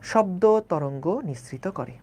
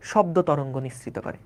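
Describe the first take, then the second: First: Slow emphatic repeat. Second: Said in the usual way. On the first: Shown as a demonstration. Teacher repeats the phrase slowly.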